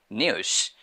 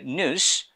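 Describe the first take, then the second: First: News said British style as "nyooz"; British pronunciation. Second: News said American style as "nooz"; American pronunciation. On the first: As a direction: say "news" the British way, with a y-glide after n. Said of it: "British people say". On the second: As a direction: say "news" the American way, no y-glide after n. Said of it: "American people say". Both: Shown as a demonstration.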